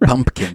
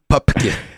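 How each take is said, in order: First: The name has an m sound like pumpkin. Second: The name has no m sound in it. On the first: The speaker calls it wrong. "they always mispronounce his name Pumpkin" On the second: The speaker calls it right. "but it's Pupkin"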